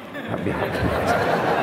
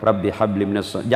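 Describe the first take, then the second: First: Put-on whispered prayer into a child's ear; father whispering the prayer. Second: Said in the usual way. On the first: Shown as a demonstration.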